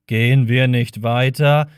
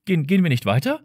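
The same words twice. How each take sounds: First: Mimicking him mockingly; mocking imitation. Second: Said in the usual way. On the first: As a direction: parrot the question back with scorn. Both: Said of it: "äffte Marvin ihn nach".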